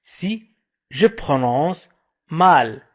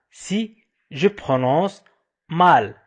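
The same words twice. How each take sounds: The two takes are said the same way.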